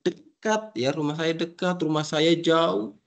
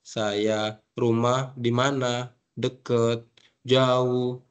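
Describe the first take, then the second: First: Higher, lively expressive delivery; animated demo of near and far. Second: Said in the usual way. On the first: Shown as a demonstration. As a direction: say it like you mean each word. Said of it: "jadi ekspresinya di-, dipakai begitu". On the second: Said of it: "Itu tidak ekspresinya".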